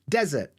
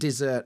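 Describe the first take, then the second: First: The stress is on the first syllable. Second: The stress is on the second syllable. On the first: A very dry, sandy place. "a very, very dry place" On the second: A sweet food like ice cream. "dessert as in ice cream"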